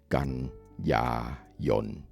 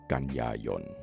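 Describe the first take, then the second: First: The word is said slowly, syllable by syllable. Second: The word is said at a normal talking speed.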